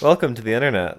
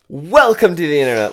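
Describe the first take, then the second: First: It is said in a flat monotone. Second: It is said with lively, varied inflection. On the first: The speaker calls it wrong. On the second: The speaker calls it right.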